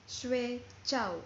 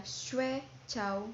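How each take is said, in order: First: "shui chow" said with the dumpling tones, falling on "chow". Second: "shui chow" said with the sleep tones, stress on "shui". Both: Shown as a demonstration. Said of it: "same spelling but different tones".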